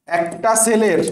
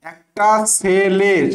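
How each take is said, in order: First: Said in the usual way. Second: একটা সেলের slowly, each piece stretched; drawn-out memory aid. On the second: Shown as a demonstration. Teacher giving students a memory trick for spelling, drawn out. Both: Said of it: "মানে কি দেখো".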